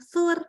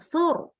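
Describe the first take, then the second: First: The r is light, with the tongue forward. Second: The r is heavy, with the tongue back raised. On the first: The speaker calls it wrong. "bukan sur" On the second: The speaker calls it right.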